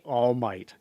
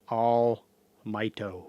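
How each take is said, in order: First: The name ends on the plain consonant. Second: The name ends with an added 'o' vowel. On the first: The speaker calls it right. "say All Might" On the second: The speaker calls it wrong. "they're like All Mighto"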